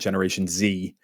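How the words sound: It is said in an American accent.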